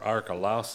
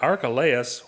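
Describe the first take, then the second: First: The name's ending sounds like 'lousy'. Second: The name's ending does not sound like 'lousy'.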